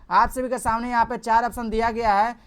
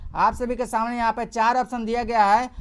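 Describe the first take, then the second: Both takes have the same delivery.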